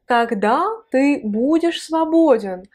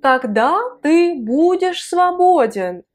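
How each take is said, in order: First: Said in the usual way. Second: Slow, careful model reading with ты stressed; teacher's slow demo of "Когда ты будешь свободен?"; slow model phrase. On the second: Shown as a demonstration. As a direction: sound out "Когда ты будешь свободен?" slowly, leaning on ты. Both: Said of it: "quand est-ce qu'une personne va être disponible".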